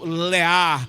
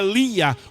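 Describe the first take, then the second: First: The name is pronounced the original-language way. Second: The name is pronounced the usual Portuguese way.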